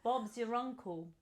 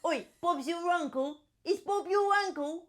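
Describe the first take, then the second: First: Soft put-on English accent. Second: Higher, hammed-up English voice; English accent. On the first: Player retrying the line, soft English accent. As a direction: try English, softly. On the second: Player hamming the line, high English accent.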